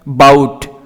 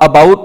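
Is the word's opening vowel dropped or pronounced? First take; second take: dropped; pronounced. First: The opening vowel is dropped: 'bout. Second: The opening vowel is pronounced: about. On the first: "बाउट ए silent है।" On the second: "मैंने इसको अबाउट नहीं कहा।"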